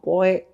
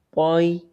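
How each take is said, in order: First: The vowel is a single flat sound. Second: The vowel glides softly toward an i sound. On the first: The speaker calls it wrong. "bukan poe" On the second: The speaker calls it right. "tapi poi"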